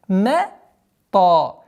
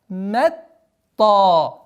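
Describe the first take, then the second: The two takes are said the same way.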